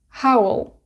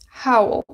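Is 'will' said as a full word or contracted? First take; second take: contracted; contracted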